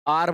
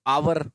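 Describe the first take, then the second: First: "आर" बिना व की आवाज़, एक सुर में; "आर" बोलो, "आवर" नहीं; hour said as aar. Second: "आवर" अक्षर-अक्षर, व की आवाज़ के साथ; "आवर" जैसा लिखा है वैसा पढ़ो; spelled-out hour. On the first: ("आर" में h चुप, सीधा आ से शुरू) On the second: ("आवर" पूरा, दो हिस्सों में) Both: Shown as a demonstration. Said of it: "आर बोलते हैं आर".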